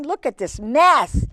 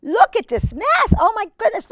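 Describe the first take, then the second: First: Said in the usual way. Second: Much higher, excited squeal; amazed exclamation. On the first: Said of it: "repeated higher". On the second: Real, not acted. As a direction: gasp at the mess in delight. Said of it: "repeated much higher".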